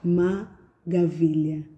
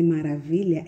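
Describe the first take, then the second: First: The middle consonant is a g sound. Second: The middle consonant is a clear r sound. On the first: The speaker calls it wrong. "ao invés de dizer R, ele diz G" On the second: The speaker calls it right. "ao invés de dizer maravilha"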